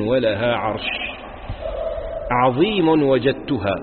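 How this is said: There is a pause after عرش. Something tremendous was found. The speaker calls it wrong.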